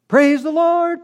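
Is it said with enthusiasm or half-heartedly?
enthusiasm. It is said with heartfelt enthusiasm.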